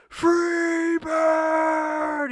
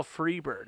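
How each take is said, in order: First: High, long drawn-out heckler's shout; screamed song request; full-volume yell. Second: Said in the usual way. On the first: Retold or imitated. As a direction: holler it as loud as you can, stretching it out. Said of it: "as loud as I can". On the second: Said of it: "I just yell".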